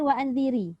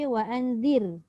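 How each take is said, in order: First: The word ends with a short i vowel. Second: The word ends on a bare r consonant. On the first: The speaker calls it wrong. "adakah kita baca wa'anziri kalau kita waqaf? Tidak kan?" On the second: The speaker calls it right. "Kita akan baca wa'anzir. Kan? Dia akan mati"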